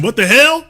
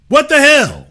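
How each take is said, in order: First: A bit louder, incredulous; can't believe it; disbelief. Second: High, loud, stunned What the hell; loud disbelief. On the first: Host reacting to reconciliation with incredulous disbelief. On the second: Host repeating it, higher and louder in disbelief. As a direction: throw up your hands in shock. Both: Real, not acted.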